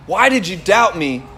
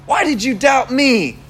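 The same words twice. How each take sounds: First: Lower, unhurried sincere question; understated, caring reproach; gentle question. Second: Exaggerated accusing question; mock reproach. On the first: Retold or imitated. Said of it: "it was more like a question of". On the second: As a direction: imitate a preacher's accusing Jesus. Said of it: "I don't think it was like that".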